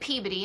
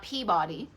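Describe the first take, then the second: First: It is said with a Massachusetts pronunciation. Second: It is said with a non-Massachusetts pronunciation. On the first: The speaker is from Massachusetts. "you can tell I'm Massachusettsian because I said Peabody" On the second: The speaker would be from elsewhere. "and not Peabody"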